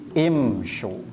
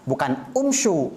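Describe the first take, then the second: First: The word begins with an 'i' vowel. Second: The word begins with an 'u' vowel. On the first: The speaker calls it right. "tetapi imsyu" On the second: The speaker calls it wrong.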